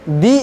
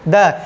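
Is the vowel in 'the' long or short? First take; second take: long; short. First: The word ends in a long 'ee' vowel. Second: The word ends in a short, weak vowel. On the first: The next word begins with a vowel sound. "Vowel sound रहेगा तो T H E का उच्चारण हम लोग दी करेंगे" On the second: The next word begins with a consonant sound. "अगर उसके पहले टी एच ई लगा रहता है तो उसका उच्चारण क्या करेंगे? द"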